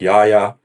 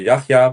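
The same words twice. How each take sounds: First: The name is said with American-style sounds. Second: The name is said with Arabic-style sounds. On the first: "he's more American, so maybe it's more like Yahya" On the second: "I would say Yahya because I assume it's an Arabic name"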